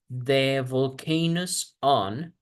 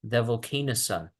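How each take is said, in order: First: The words are said separately, not linked. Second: The words are linked smoothly into one. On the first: The speaker calls it wrong. "instead of" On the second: The speaker calls it right. "vamos a conectar"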